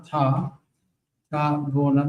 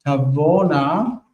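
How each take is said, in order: First: תבואנה stressed right after the vowel, wrong. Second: תבואנה with the aleph silent; תבואנה, aleph quiescent; correct form. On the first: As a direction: say תבואנה with the stress too early. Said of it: "so it's wrong". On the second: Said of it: "with the aleph quiescent". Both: Shown as a demonstration.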